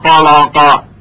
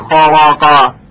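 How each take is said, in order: No difference in how they are said.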